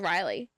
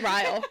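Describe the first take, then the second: First: The name is said with two syllables. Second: The name is said with one syllable. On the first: This is how the reader assumed the name sounded. The speaker calls it wrong. "I thought his name was Riley" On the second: This is how the name is actually said. The speaker calls it right. "not Ryle"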